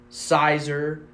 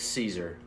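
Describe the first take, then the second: First: It is said with an 'eye' vowel first. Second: It is said with a long 'ee' vowel first. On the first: The speaker calls it wrong. "It's not Sizer" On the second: The speaker calls it right. "It's Caesar"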